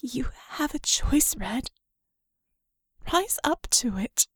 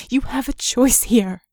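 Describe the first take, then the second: First: Soft, breathy whisper, much softer; mere whisper. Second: Louder, urgent plea with YOU leaned on. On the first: Vicky whispering to Red after her voice breaks. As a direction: drop to an intimate whisper after the crack. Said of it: "softer, a mere whisper". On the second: Vicky urging Red to choose, loud and pressing. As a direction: press the choice on him firmly. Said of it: "a mere whisper". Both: Acted.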